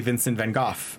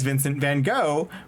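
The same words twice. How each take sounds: First: The name is said the original way. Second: The name is said the American way. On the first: This is how the name is actually said. The speaker calls it right. "when his name is actually" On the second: This is how people in the US say it. The speaker calls it wrong. "here in the U S we pronounce Vincent van Gogh as"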